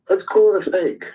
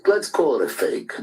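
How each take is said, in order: First: "Let's call it a fake" repeated much higher and louder, stress on call; emphatic repeat. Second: Said in the usual way. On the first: Real, not acted. Angry caller on a group call insists, loud emphatic repeat. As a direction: push it up hard the second time.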